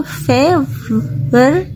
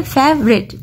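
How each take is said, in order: First: favourite stretched slowly into "fe - ver - t"; each sound of favourite held apart; drawn-out syllable division. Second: Said in the usual way. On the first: Shown as a demonstration. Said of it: "इसमें three syllable है". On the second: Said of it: "देखो favourite".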